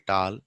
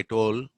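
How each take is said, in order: First: Tall with an open ah, "taal"; unrounded long vowel in "tall"; Telugu-English vowel. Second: Tall with a rounded aw, like "tawl"; rounded vowel in "toll"; English vowel. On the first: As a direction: say "tall" with a broad aa. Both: Shown as a demonstration. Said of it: "but we say tall".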